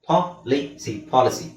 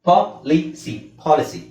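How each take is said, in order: No difference in how they are said.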